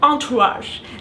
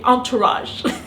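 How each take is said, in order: First: It is said with a French accent. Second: It is said with an English accent.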